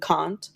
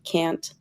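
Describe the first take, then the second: First: The word is said in a British accent. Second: The word is said in an American accent. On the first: "the pronunciation I learned, like I, I, I learned to say can't" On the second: "instead of can't"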